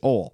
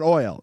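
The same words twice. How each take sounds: First: The word is said in a Southern American accent. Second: The word is said in a standard American accent. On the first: The speaker calls it right. "the people down south call oil" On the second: The speaker calls it wrong. "It's not oil"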